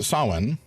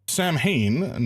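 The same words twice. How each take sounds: First: The word is said unlike its spelling. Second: The word is sounded out letter by letter. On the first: The speaker calls it right. "approximately pronounced" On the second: The speaker calls it wrong. "not pronounced like that"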